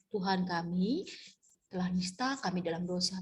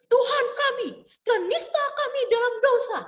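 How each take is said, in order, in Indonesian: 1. Dibaca dengan lemah, energinya rendah. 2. Dibaca dengan sangat kuat, energinya sangat tinggi. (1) "doanya lemes-lemesan" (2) "terlalu bersemangat seperti membaca uh, proklamasi"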